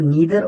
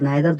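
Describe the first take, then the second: First: The first vowel sounds like 'ee'. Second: The first vowel sounds like 'eye'. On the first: "नीदर और नाइदर दोनों पढ़ सकते हैं" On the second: "नीदर और नाइदर दोनों पढ़ सकते हैं"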